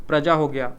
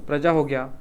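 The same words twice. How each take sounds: The two takes are said the same way.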